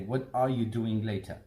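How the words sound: Every word is said fully and separately.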